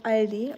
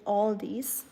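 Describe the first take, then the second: First: Aldi without a final s; German pronunciation. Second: Aldi's with an "aw" start and added s; American-style Aldi's, "all-deez"; American pronunciation. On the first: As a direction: say Aldi as AHL-dee. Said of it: "it's called Aldi". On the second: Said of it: "and not Al-, Aldi's". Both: Shown as a demonstration.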